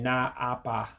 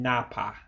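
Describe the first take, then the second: First: The two words are said separately. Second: The two words merge into one word. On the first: The speaker calls it wrong. "I'm not saying na apa" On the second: The speaker calls it right. "I'm saying napa"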